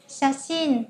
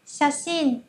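The two takes are said the same way.

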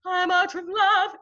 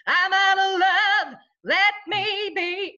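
First: High, slow sung line in the wrong style for pop; wrong-style singing. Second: Loud, high, drawn-out sung line with nasal twang; sung, belt it out with projecting twang; twangy pop singing. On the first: Coach showing why pop needs twang, sung in the wrong style. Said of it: "goes into the wrong style". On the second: Coach showing how twang carries in pop, loud twangy singing. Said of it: "That has twang in it". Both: Shown as a demonstration.

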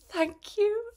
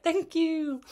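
First: Very high, overjoyed thank you; shivering runner thanking dad for hot chocolate, squealed high; delighted thanks. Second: High, sweet little thank you; exhausted runner thanking the marshal, high and sweet; grateful thanks. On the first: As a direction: squeal your thanks for the gift. Dad hands her hot chocolate. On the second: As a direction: thank them, voice lifted high. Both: Retold or imitated.

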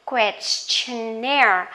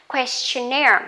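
First: Questionnaire said slowly, stress on -naire; slow model word. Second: Questionnaire at natural pace, stress on -naire; normal speed word. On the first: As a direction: drag out Questionnaire for the class. (đọc chậm Questionnaire) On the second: (đọc Questionnaire tốc độ thường) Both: Shown as a demonstration. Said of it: "questionnaire có nghĩa là".

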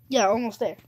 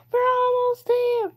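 First: Said in the usual way. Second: High, loud, stretched-out cry; excited cheer. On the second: Real, not acted. Player nearing the end of the level, excited cheer.

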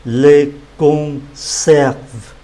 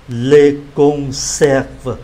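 First: "Les conserves" said slowly, each sound clear; slow model word. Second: Said in the usual way. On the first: Shown as a demonstration. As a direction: stretch out "Les conserves" for learners. (đọc chậm "Les conserves")

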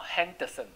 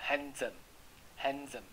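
First: "handsome" as han-duh-sum, D sounded; pronounced D mispronunciation. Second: "handsome" slowly as HAN-zum; silent D. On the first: Teacher showing what won't do, "handsome" with the D pronounced. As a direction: put an extra "duh" inside "handsome". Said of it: "不行哈". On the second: Teacher showing how to read it, "handsome" as HAN-zum. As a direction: drop the d and voice the s of "handsome" as z. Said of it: "你就这样念". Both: Shown as a demonstration.

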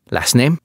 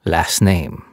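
First: Said in the usual way. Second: Firm falling demand, friendly tone gone; stern repeat. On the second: Acted. French cop insisting on the captive's last name, stern repeat. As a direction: insist on it flatly. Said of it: "the policeman said again".

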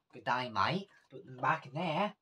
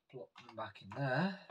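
First: Louder, higher mock Australian accent; really bad Australian accent. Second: Said in the usual way. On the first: Vlogger putting earrings back, in a bad Australian accent. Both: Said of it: "That was a really bad Australian accent".

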